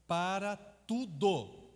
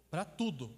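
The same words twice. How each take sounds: First: Para tudo drawn out very slowly; emphatic. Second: Said in the usual way. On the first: Shown as a demonstration. To the audience, stressing the technique fits all, slow emphatic. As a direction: stretch out para tudo for weight.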